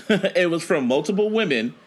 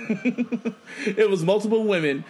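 First: Said in the usual way. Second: Laughing. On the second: Real, not acted. Repeats it, breaking into laughter.

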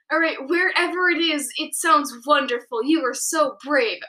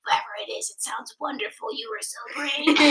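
First: Said in the usual way. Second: Soft unvoiced whisper; hushed, almost breathless whisper; quiet voice. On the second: Shown as a demonstration. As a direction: whisper it gently to a hurt friend. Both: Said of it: "I said in a quiet voice".

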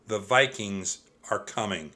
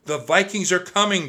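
First: Said in the usual way. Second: High, loud warning shout. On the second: A narrator's reading. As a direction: raise the alarm to everyone. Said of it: "Jack shouted".

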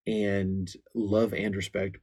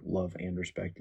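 First: Slow, stressed title Love and Respect; book title. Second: Said in the usual way. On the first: Shown as a demonstration. Pastor recommending a book, slow weighted title. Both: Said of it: "that's a powerful book".

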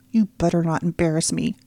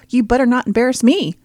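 First: Said in the usual way. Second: Louder, higher, mocking parrot; mocking mimicry. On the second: Little brother mocking his sister's warning back at her.

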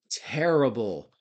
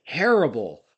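First: Slow, drawn-out "terrible," jowly and heavy. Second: Loud, punched "terrible," in a jowly growl. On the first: Second "terrible" dragged out slowly. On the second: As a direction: belt out "terrible," heavy-jawed. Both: Retold or imitated.

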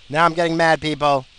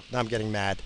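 First: Louder, higher, real irritation; getting mad. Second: Said in the usual way. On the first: Real, not acted. Cut-off driver warning people, getting mad out loud. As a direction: raise the voice, temper rising.

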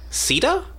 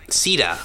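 First: Sita? with a steep high rise; questioning pronunciation. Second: Sita said flat and clipped, see-tah; the Australian way of saying Sita; Australian pronunciation. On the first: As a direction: ask Sita? as if checking it, pitch leaping. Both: Shown as a demonstration. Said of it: "it's very Australian".

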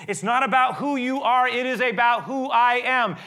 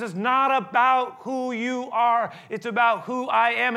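First: "about" and "I" hit high and loud, falling on "am"; stress on I am. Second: "not" stretched and slow, "about" and "I" leaned on heavily; slow it right down and lean on "not" and "I"; slow stress on not. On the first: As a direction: punch "I" in "who I am", loud and high. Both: Shown as a demonstration. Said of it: "where we put the accent and the emphasis".

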